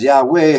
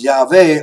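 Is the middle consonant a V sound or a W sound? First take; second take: W; V. First: The middle consonant is a W sound. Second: The middle consonant is a V sound. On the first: "the anglicized Yahweh" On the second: "phonetically, the name should be pronounced Yahweh"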